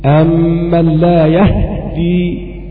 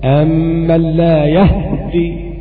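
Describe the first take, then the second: Both takes have the same delivery.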